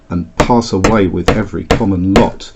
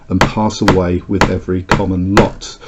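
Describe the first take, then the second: No difference in how they are said.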